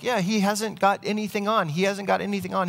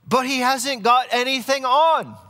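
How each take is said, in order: First: High-pitched voices of onlookers agreeing, not shouted; crowd chiming in. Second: Put-on very high, loud, drawn-out boy's cry with a British accent; little boy shouting. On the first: Acted. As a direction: echo the boy as the crowd catches on. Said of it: "other people are like". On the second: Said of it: "this one little boy just shouts out".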